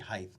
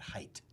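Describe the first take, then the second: First: The word ends with a th sound. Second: The word ends with a plain t sound. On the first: The speaker calls it right. "should be height" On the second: The speaker calls it wrong. "not height"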